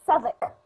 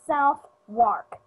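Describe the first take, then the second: First: It is said in its reduced, unspelled form. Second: Every letter is sounded, as it is spelled. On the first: The speaker calls it right. "It is pronounced" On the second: The speaker calls it wrong. "That's how you pronounce it if you saw it"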